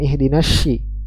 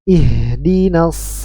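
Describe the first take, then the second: First: The final consonant sounds like sh. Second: The final consonant sounds like a thick s. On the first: The speaker calls it wrong. "bukan ihdinasy" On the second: The speaker calls it right. "tapi si"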